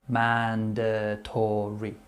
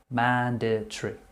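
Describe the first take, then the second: First: The word is said with four syllables. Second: The word is said with three syllables. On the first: This is more formal, official speech. "rather than saying mandatory" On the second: This is casual everyday speech. "So we're looking at three syllables in general conversation"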